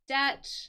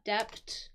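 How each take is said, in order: First: The b sound is silent. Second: A b sound is pronounced. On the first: The speaker calls it right. "I didn't pronounce the B in this word. The B is silent" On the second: The speaker calls it wrong. "not debt"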